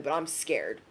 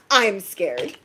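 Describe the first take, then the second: First: Much lower and softer, half-whispered fright; hushed scared. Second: Said in the usual way. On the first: Real, not acted. Reader admitting fear to viewers, very hushed. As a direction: drop it low like you're truly nervous.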